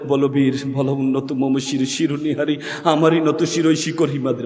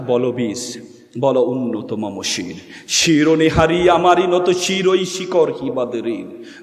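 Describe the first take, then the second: First: It is recited softly, without heroic force. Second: It is recited forcefully, in a heroic manner.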